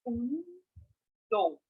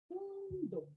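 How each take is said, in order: First: The word is said slowly and drawn out. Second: The word is said at normal speed.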